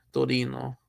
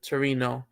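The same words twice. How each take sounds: First: "Torino" with a tapped Italian r, to-RI-no; Italian pronunciation. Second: "Torino" with an English r, Tuh-REE-no; English pronunciation. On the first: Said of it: "both in Italian accent". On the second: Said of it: "both in English accent". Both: Shown as a demonstration.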